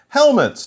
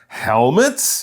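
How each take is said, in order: First: The pitch falls at the end. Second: The pitch rises at the end. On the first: It is a plain statement. The speaker calls it wrong. "not helmets" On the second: It is a surprised question. The speaker calls it right. "Notice it's a question, so he would say it with that rising tone"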